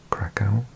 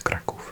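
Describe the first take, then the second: First: It is said with an English pronunciation. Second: It is said with a Polish pronunciation. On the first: "in English we might call it" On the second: "It's Kraków in Polish"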